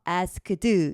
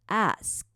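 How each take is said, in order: First: The final ending is clearly released. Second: The final ending is clipped and tense. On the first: The speaker calls it wrong. "asked 이런 느낌이 아니고" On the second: The speaker calls it right. "ask 약간 쌍디의 끝 소리가 나요"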